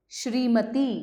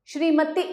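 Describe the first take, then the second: First: Said in the usual way. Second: श्रीमती pitched high, ending on a short "ti"; श्रीमती said "shree-ma-tih"; misspelt short ending. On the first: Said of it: "सामने शुद्ध करके". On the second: Shown as a demonstration. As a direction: cut the final vowel of श्रीमती short. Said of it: "अशुद्ध शब्द लिखे हुए".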